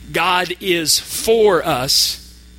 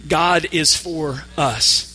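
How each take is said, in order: First: The stress is on the word for. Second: The stress is on the word us. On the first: God is on our side, not against us. "The word for" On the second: God is on the side of us in particular. "And now the word us"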